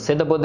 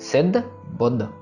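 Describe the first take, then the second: First: The words are run together without separation. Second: The words are kept clearly separate. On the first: The speaker calls it wrong. "नहीं" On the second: The speaker calls it right. "सिद्ध बुद्ध में हमको अलग अलग पढ़ना है"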